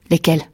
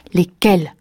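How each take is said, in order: First: Said in the usual way. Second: "Lesquels" flaring up, mildly angry; losing his temper. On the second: A narrator's reading. Jealous husband demanding details of wife's dream, losing his temper. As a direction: demand it with rising temper, falling at the end. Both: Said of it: "s'emporta-t-il".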